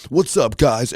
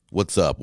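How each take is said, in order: First: Mock hyped YouTuber "What's up, guys?", much higher and louder; YouTuber greeting. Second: Said in the usual way. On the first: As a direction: ham up the big YouTube intro. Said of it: "Every episode". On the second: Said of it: "Why is that the normal word?".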